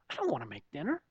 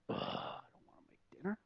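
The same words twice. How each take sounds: First: Soft, low mock sulk; acted-out quiet reluctance; reluctant grumble. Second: Whispered inner groan; dreading the chore, all whisper; reluctant grumble. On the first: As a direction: grumble it quietly to yourself, voice just audible. Repeats his reluctant inner grumble. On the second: Retold or imitated. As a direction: grumble it under your breath, barely voiced. Acting out his reluctant inner grumble.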